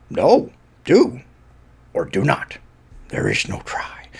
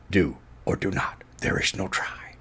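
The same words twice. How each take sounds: First: Whispered Yoda wisdom. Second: Hushed, softer Yoda line; Yoda quote. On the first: Fan redoing Yoda line as a reverent whisper. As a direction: breathe the line like a sage. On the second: Fan quietly quoting Yoda to listener, hushed voice. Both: Retold or imitated. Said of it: "the best Yoda line".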